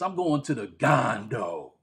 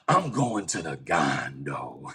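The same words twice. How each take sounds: First: It is said in a plain, casual tone. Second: It is said in a scary, ominous tone.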